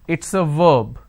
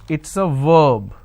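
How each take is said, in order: The two takes are said the same way.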